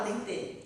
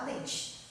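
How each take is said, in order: First: "dente" with a clear t and a full final e, as it is written; spelling pronunciation. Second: "dente" said "dentchi", with the t softened to tch and the final e reduced to i; natural Brazilian speech. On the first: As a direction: say "dente" exactly the way it's spelled, ending in e. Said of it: "Ninguém fala dente". ("dente" pronunciado como se escreve, com t e e final) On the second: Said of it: "a gente fala dente". ("dente" falado como "dentchi", com t chiado e final i) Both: Shown as a demonstration.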